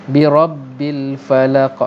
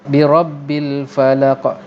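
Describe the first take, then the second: The two takes are said the same way.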